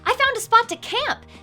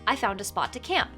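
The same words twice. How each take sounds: First: It is said in an excited, enthusiastic tone. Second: It is said in a plain, matter-of-fact tone. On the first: The speaker is proud and wants to show off. "can give that statement additional meaning" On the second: It simply passes on information. "as a straightforward way to communicate information"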